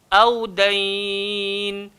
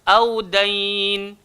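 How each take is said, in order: First: The final long vowel is held moderately long. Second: The final long vowel is held briefly. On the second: "boleh berhenti dua"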